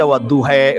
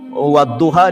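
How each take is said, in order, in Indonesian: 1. Vokal akhirnya condong ke 'e'. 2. Vokal akhirnya adalah 'a' terbuka.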